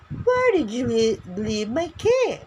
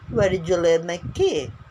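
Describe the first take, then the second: First: It is said at a noticeably higher pitch. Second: It is said at a lower, normal pitch.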